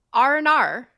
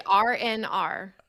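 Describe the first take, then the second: First: Louder demo of Australian "oh no"; letters blended into an Australian accent. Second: "R N R" spelt out slowly; slow, separated. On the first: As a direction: run together like an Australian "oh no". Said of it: "an Australian accent". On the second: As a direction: say "R N R" with each letter apart. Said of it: "but say it fast". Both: Shown as a demonstration.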